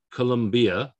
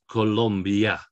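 First: "Colombia" with a full ee vowel, co-lom-BEE-a; "Colombia" as four syllables, the mistaken way; wrong pronunciation. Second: "Colombia" slowly as co-LOM-bya; drawn-out correct "Colombia", stress on LOM, ending in bya. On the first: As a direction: give the I in "Colombia" its own syllable. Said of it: "It's not Colombia". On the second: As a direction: glide the I in "Colombia" into a Y sound. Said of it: "So that I is like a Y". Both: Shown as a demonstration.

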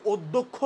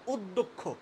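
First: অধ্যক্ষ said as the wrong form the teacher rejects, odd-dho-kkho; wrong pronunciation. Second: অধ্যক্ষ said the right way, ending clipped on kkh; correct pronunciation. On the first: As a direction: demo how অধ্যক্ষ is not said, as od-dho-kkho. (ভুল উচ্চারণে অধ্যক্ষ) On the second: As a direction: show the correct অধ্যক্ষ, od-dokkh. (শুদ্ধ উচ্চারণে অধ্যক্ষ) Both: Shown as a demonstration. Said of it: "আমরা কিন্তু অধ্যক্ষ বলি না".

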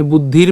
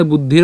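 First: বুদ্ধির ending on a bare র; stopped final consonant. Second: বুদ্ধির with an open vowel after র; don't stop বুদ্ধির on the consonant; final vowel voiced. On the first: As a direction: cut বুদ্ধির at র, no vowel after. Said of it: "র হসন্ত পর্যন্ত যদি আমরা উচ্চারণ করি". (বুদ্ধির-এর র হসন্ত উচ্চারণে) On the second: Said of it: "বুদ্ধির উচ্চারণ করিনি". (বুদ্ধির-এর র স্বরান্ত উচ্চারণে) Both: Shown as a demonstration.

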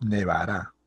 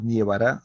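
First: "nevará" with a single E in the first syllable; glide dropped. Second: "nievará" with IE in the first syllable; added IE glide. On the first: Teacher giving the correct form, "nevará" without the I. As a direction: keep a pure E in "nevará". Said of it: "más bien desaparece". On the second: Teacher rejecting a wrong form, "nievará" with IE. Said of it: "el encuentro vocálico". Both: Shown as a demonstration.

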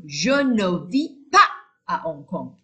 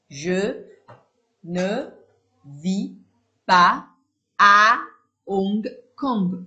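First: Said in the usual way. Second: Each word said alone with a pause after it; "Je ne vis pas à Hong Kong" slowly spelled out, pas and à punched loud. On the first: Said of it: "same sentence read whole". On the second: Shown as a demonstration. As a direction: dictate one word at a time. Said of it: "word by word dictation".

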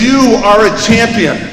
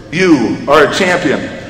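First: Slow, higher, drawn-out call; storyteller's scream. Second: Slow, drawn-out echo at ordinary pitch; echo coming back. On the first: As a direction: proclaim it to the mountains. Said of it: "again the man screams". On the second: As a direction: hand the words back slowly. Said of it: "coming back comes the words". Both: A narrator's reading.

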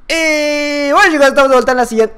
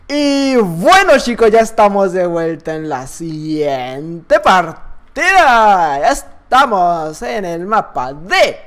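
First: Long "Y bueno", then words crammed in a slurred rush; garbled intro. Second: "Y bueno, chicos" very slow, every syllable stretched out; over-enunciate the intro "ya estamos de vuelta" word by word; vocalizing carefully. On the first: Real, not acted. (intro atropellada, sin vocalizar) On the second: Shown as a demonstration. (intro vocalizada, lenta y exagerada) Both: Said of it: "habla bien".

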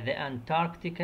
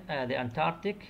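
First: "the Antarctic" drawn out slowly, each syllable given room; slow model word. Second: Said in the usual way. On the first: Shown as a demonstration. Teacher modelling "the Antarctic" slowly for her Arabic-speaking students. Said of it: "teacher models the English word". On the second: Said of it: "teacher repeats the word".

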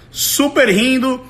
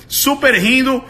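Both takes have the same delivery.

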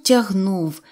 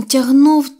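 First: Said in the usual way. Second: Тягнув louder and stretched, straining; тягнув drawn out with effort; effortful pull. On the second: A narrator's reading. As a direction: lean into тягнув as if hauling. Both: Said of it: "Він тягнув, тягнув".

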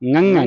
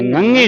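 First: Ngੰਗ ਹੈ ending on an open ai vowel; correct nasal ending. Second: Ngੰਗੇ ending on a closed e vowel; mistaken closed ending. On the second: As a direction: say ngੰਗੇ with final e instead of ai, louder. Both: Shown as a demonstration. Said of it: "ngੰਗੇ ਨਹੀਂ ਬੋਲਣਾ".

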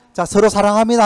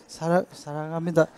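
First: Said in the usual way. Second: Shy and much softer, stumbling on 사랑; awkward stammered love line. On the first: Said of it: "한번 해보세요". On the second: Shown as a demonstration. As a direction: mumble it like an embarrassed spouse. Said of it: "못한다니까요". (쑥스러워 더듬으며 작게)

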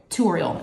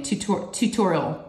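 First: "tutorial" said too-OR-ee-ul; dropped second T. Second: "tutorial" slowly with both Ts; slow, careful "tutorial", second T kept; full pronunciation. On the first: Retold or imitated. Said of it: "is how she says it". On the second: Shown as a demonstration. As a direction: sound out "tutorial" as too-TOR-ee-ul. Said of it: "when you say it fast".

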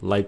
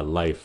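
First: Life with the final f swallowed, lips closed; clipped wrong life. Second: Life with the final f breathed out; correct life. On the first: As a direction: life cut short, breath stopped at the end. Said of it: "Các bạn đừng có nói là life". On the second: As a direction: life ending in a soft f, lips open. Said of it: "Cho cái hơi nó ra một tí xíu". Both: Shown as a demonstration.

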